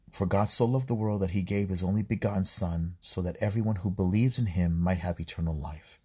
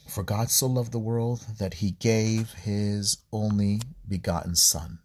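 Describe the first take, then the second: First: Said in the usual way. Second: Slow, solemn reading, leaning on so; slow scripture reading. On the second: Shown as a demonstration. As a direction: read the verse slowly and gravely, stressing "so".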